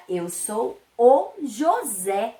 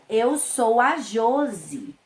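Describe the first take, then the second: First: "José" slowly, stressed on an open final "sé"; slow introduction, hitting the last syllable of "José". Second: "Josi" slowly, stressed on "Jo" with a closed o; slow introduction, leaning on the first syllable of "Josi". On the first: Boy introduces himself in teacher's example, stress on last syllable. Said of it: "O acento fez toda a diferença na pronúncia". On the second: Girl introduces herself in teacher's example, stress on first syllable. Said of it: "a mocinha se apresenta". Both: Shown as a demonstration.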